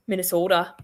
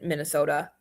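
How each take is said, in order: First: "Minnesota" with a long Minnesotan o; light imitation of a Minnesota accent on "Minnesota". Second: Said in the usual way. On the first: Shown as a demonstration. Mimicking how Minnesotans say their state, Minnesota accent. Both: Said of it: "that's how you guys talk".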